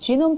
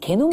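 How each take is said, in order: First: The word begins with a j sound. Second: The word begins with a hard g sound. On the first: The speaker calls it right. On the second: The speaker calls it wrong.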